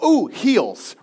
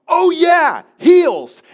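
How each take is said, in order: First: Said in the usual way. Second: High, loud sudden recall; spinning snowboarder suddenly remembering his heels, loud; sudden realization. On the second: Retold or imitated. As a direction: blurt it out as it hits you.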